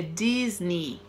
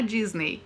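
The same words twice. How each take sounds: First: Disney said as DIZ-nee, slow; Disney ending in a plain EE; slow correct pronunciation. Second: Disney said as DIZ-nay, ending in EY; Disney with the final E sounded; wrong pronunciation. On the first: Teacher models the right form for students, Disney as slow DIZ-nee. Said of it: "a gente não pronuncia o E". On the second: Teacher shows students the mistake to avoid, Disney ending in nay. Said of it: "não é Disney". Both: Shown as a demonstration.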